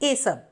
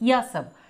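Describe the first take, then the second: First: The first word starts with a plain e vowel. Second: The first word starts with a y sound.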